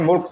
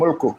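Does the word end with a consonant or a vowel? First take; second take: consonant; vowel. First: The word ends with a bare consonant. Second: The word ends with a short vowel. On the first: The reader stops on this word. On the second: The reading continues without a stop.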